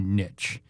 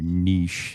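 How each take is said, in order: First: The word is said in a plain, everyday way. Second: The word is said in a fancier, refined way.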